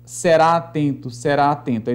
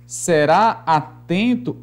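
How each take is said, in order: First: "será atento" with the two a's merged into one; fused "será atento"; joined vowels. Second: "será atento" slowly, a break between the two a's; slow, unjoined "será atento"; words kept separate. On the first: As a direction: glide from "será" into "atento" without a break. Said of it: "aí eu juntaria". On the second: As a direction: pull "será" and "atento" apart. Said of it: "se fosse assim". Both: Shown as a demonstration.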